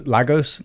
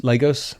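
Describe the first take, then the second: First: Lagos said "LAG-ohs", first vowel as in "lag"; "Lagos" starting like "lag"; short-a first syllable. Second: Lagos said "LAY-gohs", first vowel as in "lay"; "Lagos" starting like "lay"; long-a first syllable. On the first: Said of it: "I think we got correct". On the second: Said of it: "It was Lagos". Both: Shown as a demonstration.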